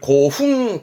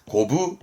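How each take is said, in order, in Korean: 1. 이 단어는 fun 소리로 끝나요. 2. 이 단어는 bu 소리로 끝나요. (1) "고흥하지 않고요" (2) "고부고부합니다"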